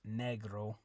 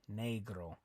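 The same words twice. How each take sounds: First: The e is not said with an ay sound. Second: The e is said with an ay sound. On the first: The speaker calls it wrong. "so it's not" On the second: The speaker calls it right. "the E always makes an A sound"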